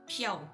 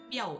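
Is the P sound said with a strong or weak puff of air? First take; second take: strong; weak. First: The P is said with a strong puff of air. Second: The P is said with little puff of air. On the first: The speaker calls it right. "itu Piao. It's P H I A O" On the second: The speaker calls it wrong. "Itu bukan Piao"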